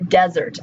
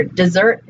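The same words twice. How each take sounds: First: "desert" stressed on the start, DEZ-ert; first-syllable stress. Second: "Dessert" stressed on the end, di-ZERT; second-syllable stress. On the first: Teacher giving a homograph example, "desert" said DEZ-ert. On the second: Teacher giving a homograph example, "Dessert" said di-ZERT. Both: Shown as a demonstration. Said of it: "but pronounced differently".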